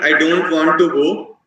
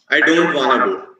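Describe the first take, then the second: First: Every word is pronounced fully and clearly. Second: The words are slurred and sounds are dropped.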